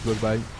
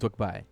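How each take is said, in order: First: The name is said with a French accent. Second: The name is said with an American accent. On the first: This is how the speaker himself says it. "Mais moi, je dis Dwagby" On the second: This is how Americans say it. "pour euh, les Américains, ... c'est Dwagby"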